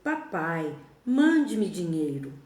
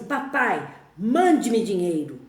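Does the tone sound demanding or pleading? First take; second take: pleading; demanding. First: It sounds like a humble, needy plea. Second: It sounds like a rude, demanding order.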